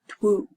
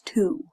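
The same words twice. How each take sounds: First: It is said with an audible w sound. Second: It is said without any w sound. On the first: The speaker calls it wrong. "not two" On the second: The speaker calls it right. "It's two"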